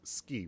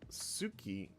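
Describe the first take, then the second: First: The vowel after the s is dropped. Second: The vowel after the s is clearly voiced. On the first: "it's ski when it's said" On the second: "ski is pronounced suki"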